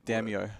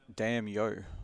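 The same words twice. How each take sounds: First: The name is said as one smooth word. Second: The name is split into two separate parts. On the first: The speaker calls it right. "There you go" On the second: The speaker calls it wrong. "you're separating the damn and the yo"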